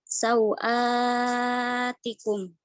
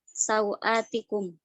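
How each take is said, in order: First: The long vowel is held very long. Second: The long vowel is held short. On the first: "maka mad badal dibaca uh, tul" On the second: "maka mad badal boleh dibaca dengan qasr"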